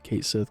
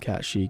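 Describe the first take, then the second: First: The name ends with a 'sith' sound. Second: The name ends with a 'she' sound. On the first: "call him Kate Sith" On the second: "You want to call him Cat She, call him Cat She"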